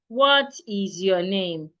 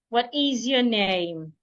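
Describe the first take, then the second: First: The pitch stays flat and monotone throughout. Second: The pitch moves up and down throughout. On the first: The speaker calls it wrong. "Your voice should not be flat. ... you would not say" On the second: The speaker calls it right. "Rather, you say something like"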